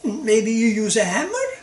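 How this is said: It is said as a questioning remark. The speaker is asking something. "And now it's a question"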